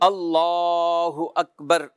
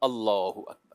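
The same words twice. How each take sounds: First: The phrase is drawn out and lengthened. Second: The phrase is said short, not lengthened. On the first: The hands are to be released here. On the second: The hands are to be folded here.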